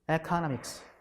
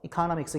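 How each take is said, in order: First: The first vowel is a long tense vowel. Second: The first vowel is a short lax vowel. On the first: "또 이렇게 발음하기도 하죠" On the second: "렉스 바웰로 economics 이렇게 이렇게 발음하기도 하고"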